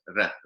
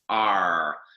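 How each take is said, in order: First: The r is a quick tongue-tip tap. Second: The r is a curled, slightly nasal sound. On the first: The speaker calls it right. "in Colombian Spanish is r, r. You put the tip of your tongue against the top of your palate and you kind of flick it forward" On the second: The speaker calls it wrong. "In American English, you bring the tongue further back. R. The tongue is, is more curled and it's a slightly more kind of nasal nasal sound"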